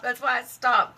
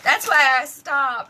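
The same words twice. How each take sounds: First: Said in the usual way. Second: Laughing, slow and louder. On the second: Real, not acted. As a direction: laugh through the words.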